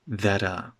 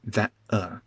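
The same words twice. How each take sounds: First: The T is a quick tap. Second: The T is a glottal stop. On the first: The speaker calls it right. "The T is tapped" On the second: The speaker calls it wrong. "It's not a glottal stop. I'm not saying ... that uh"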